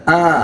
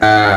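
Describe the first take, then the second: First: The vowel comes from the middle of the throat. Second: The vowel comes from deep in the throat. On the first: The speaker calls it wrong. "ini masuk tengah tenggorokan" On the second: The speaker calls it right. "yang benar"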